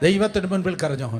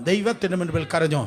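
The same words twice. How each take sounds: The two takes are said the same way.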